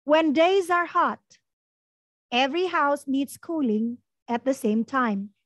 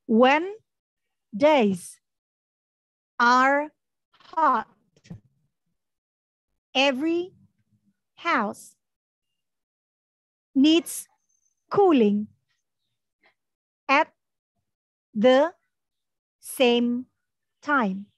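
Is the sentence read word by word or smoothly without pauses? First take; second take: smoothly; word by word. First: The sentence is read smoothly without any pauses. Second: Each word is read separately with pauses between. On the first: "tanpa jeda ya" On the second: "Sekarang kita baca perkata"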